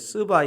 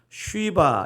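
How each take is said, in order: First: The name begins with a plain s sound. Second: The name begins with an sh sound. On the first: This is the Korean translation's rendering. "한국어로는 이제 스바 이렇게 번역됐지만" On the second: This is the original Hebrew form. "히브리어 원어를 찾아보니까 쉬바 이렇게 되어 있습니다"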